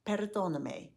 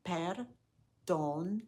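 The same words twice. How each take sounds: First: Perdóname run together as one word; a little faster. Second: Syllable by syllable, very slowly. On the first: Teacher repeating perdóname for learners, a bit faster. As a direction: say perdóname smoothly, without breaks between syllables. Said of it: "Now a little bit faster". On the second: Teacher modelling perdóname for learners to repeat, slowly. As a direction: draw out perdóname in separate, evenly spaced syllables. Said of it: "Say it slowly after me". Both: Shown as a demonstration.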